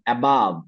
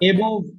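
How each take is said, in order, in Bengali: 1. শেষ অক্ষরে একটি খোলা 'uh' স্বরধ্বনি আছে। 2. শেষ অক্ষরে একটি গোলাকার 'o' স্বরধ্বনি আছে। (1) "উচ্চারণটা সবাই বলেন অ্যাবাভ" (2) "এবভ না"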